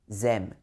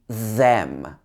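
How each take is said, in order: First: It starts with a z-like sound. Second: It starts with a th sound, tongue forward. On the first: The speaker calls it wrong. "a lot of people would say them" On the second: The speaker calls it right. "It should be them"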